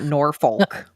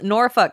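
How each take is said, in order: First: It is said with an American pronunciation. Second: It is said with the local pronunciation. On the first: The speaker calls it wrong. "It's not Norfolk. Me and my American accent" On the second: The speaker calls it right. "I can say it properly this time"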